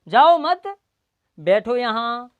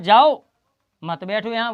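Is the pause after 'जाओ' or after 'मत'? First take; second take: after मत; after जाओ. First: The pause comes after the word 'मत'. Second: The pause comes after the word 'जाओ'. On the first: The listener is asked not to leave but to sit. "वक्ता ने कहा जाओ मत, यानी ना जाओ" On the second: The listener is told to go and not sit. "लेकिन श्रोता ने क्या सुना, मैंने सुना"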